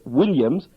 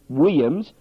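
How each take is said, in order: First: The name is said with a clear L sound. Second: The name is said like weeyims, without the L. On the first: The speaker calls it right. "the bloke who plays for the Sydney Swans is" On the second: The speaker calls it wrong. "not Williams, W E E I Y I M S"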